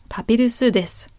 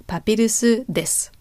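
The two takes are said the same way.

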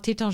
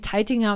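First: The name is pronounced the French way. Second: The name is pronounced the German way.

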